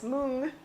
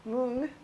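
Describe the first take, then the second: First: The word is said with an Indian pronunciation. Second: The same.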